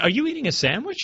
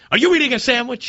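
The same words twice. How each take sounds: First: The question sounds mild and curious. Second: The question sounds sharp and accusatory. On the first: A neutral request for information. "It wasn't" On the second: The caller is being attacked for it. "It was"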